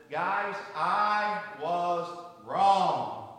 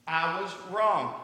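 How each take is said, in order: First: Very slow, each word weighed; slow solemn confession. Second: Drawn out and a bit louder; slow, firmer admission. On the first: Father confessing to his three kids, very slowly and deliberately. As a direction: confess it slowly to the whole family. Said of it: "Your dad has something to tell you". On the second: Husband repeating his apology to his wife, slowly and clearly. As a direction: say it out so she hears it. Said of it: "Can you say it louder?". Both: Retold or imitated.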